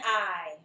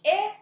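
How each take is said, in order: First: The vowel is the long sound, as in pine. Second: The vowel is the short sound, as in itch. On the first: "the long vowel sound" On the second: "the short vowel sound"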